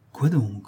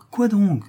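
First: Said in the usual way. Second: High-pitched, eager question; eager curiosity. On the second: Acted. Another clerk pressing for the gossip, high and eager. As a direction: jump in high, hungry for gossip.

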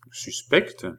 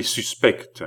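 First: Suspecte thrown back as a rising question; questioning echo. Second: Said in the usual way. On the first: Acted. Balsamo echoes Philippe's accusation, questioning suspecte with a rise.

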